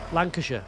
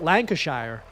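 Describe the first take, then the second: First: The ending is reduced to a short 'sher'. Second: The ending is a full 'shire' like 'fire'. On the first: The speaker calls it right. "But it's sh" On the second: The speaker calls it wrong.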